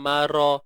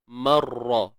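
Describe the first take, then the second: First: The r sound is short and single. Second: The r sound is doubled and held longer. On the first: The speaker calls it wrong. "Jangan mara" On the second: The speaker calls it right. "ra bersabdu tu betul-betul lah"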